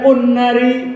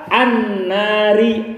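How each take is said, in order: First: The word begins with a u vowel. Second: The word begins with an a vowel. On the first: The speaker calls it wrong. "Kenapa tidak dibaca un-nari?" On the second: The speaker calls it right. "Contoh a"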